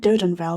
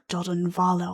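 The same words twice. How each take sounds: First: It is pronounced like a British village name. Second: It is pronounced in a less British-sounding way. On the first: "That's probably a very British way of saying it" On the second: "it's probably like Doden Vale or something"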